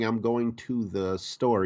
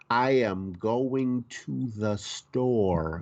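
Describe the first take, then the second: First: It is said casually, with the contraction. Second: Each word is said slowly and clearly articulated. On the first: The speaker calls it wrong. "instead of saying" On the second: The speaker calls it right. "you need to like pronounce your words"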